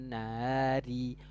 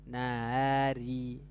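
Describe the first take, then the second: No difference in how they are said.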